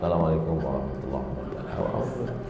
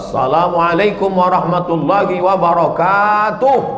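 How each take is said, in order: First: It is said limply with weak energy. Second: It is said loudly with lively energy.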